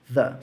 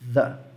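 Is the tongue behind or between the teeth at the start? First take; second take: between; between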